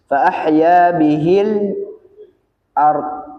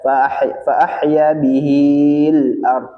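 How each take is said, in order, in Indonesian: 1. Vokal pada bihi tetap dibaca pendek. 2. Vokal pada bihi dibaca panjang. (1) "tapi langsung ya" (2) "bihi tidak dibaca"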